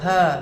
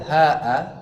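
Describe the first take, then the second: First: The word is a single syllable with no glottal stop. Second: The word has a glottal stop before the final vowel. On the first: "Ha doang, tidak ada hamzah" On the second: "ada hamzahnya"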